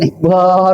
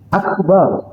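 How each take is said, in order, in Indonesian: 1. Vokal suku kata kedua dibaca panjang. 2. Vokal suku kata kedua dibaca pendek. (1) "Ngapain Akbar gitu" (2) "Akbar cukup"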